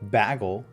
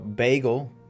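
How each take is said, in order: First: The first vowel does not sound like 'bay'. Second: The first vowel sounds like 'bay'. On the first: "number two" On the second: "B A Y essentially"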